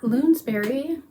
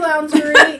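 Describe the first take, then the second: First: The first vowel sounds like 'oo' in moon. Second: The first vowel sounds like 'ow' in pounce. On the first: The speaker calls it wrong. "it's not Loonsberry" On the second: The speaker calls it right. "like pounce, like round"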